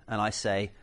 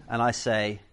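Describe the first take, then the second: The two takes are said the same way.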